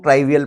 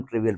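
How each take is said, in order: First: ट्राइवियल with "try" in the first syllable; alternative pronunciation. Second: ट्रिवियल with short "tri" as in trip; preferred pronunciation. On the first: Teacher quoting how some people read it, ट्राइवियल with a long "eye" sound. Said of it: "कुछ लोग ट्राइवियल पढ़ते हैं". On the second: Teacher giving his own reading, ट्रिवियल with a short i. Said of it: "हम ट्रिवियल पढ़ते हैं". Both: Shown as a demonstration.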